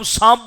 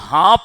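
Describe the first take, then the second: First: The word begins with an s sound. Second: The word begins with an h sound. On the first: The speaker's own community's way of saying it. "हम सांप बोलते हैं" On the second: Another community's way of saying it. "स को ह से बदल कर पढ़ते हैं"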